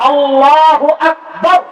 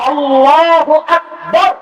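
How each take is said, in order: Both takes have the same delivery.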